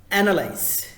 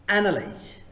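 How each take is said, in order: Both takes have the same delivery.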